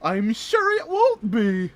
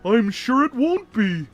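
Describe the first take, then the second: First: It is said in a Tigger-like voice. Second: It is said in a Patrick-like voice.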